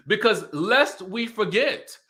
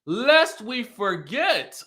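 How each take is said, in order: First: "lest we forget" said slowly and pointedly, rising at the end; emphatic phrase. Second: "lest we forget" stretched very slowly, higher, falling at the end; drawn-out emphasis. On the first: Warning the reunion cast, slow pointed emphasis. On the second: Driving the point home to viewers, drawn-out higher emphasis. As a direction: drag out each word of "lest we forget". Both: Shown as a demonstration. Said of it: "repeats the phrase for emphasis".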